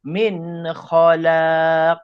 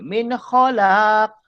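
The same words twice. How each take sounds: First: The vowel in khalaq is drawn out long. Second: The vowel in khalaq is kept short. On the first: The speaker calls it right. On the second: The speaker calls it wrong.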